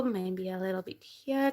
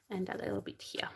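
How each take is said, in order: First: Said in the usual way. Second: A quick, breathy whispered aside. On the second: Shown as a demonstration. Repeats the phrase, now whispered.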